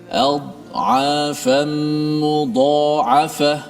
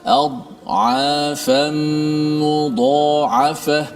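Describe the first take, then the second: Both takes have the same delivery.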